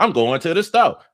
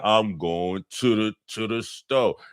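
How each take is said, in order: First: It is said at normal speed. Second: It is said slowed down, with a repeat.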